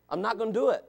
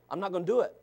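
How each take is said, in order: Both takes have the same delivery.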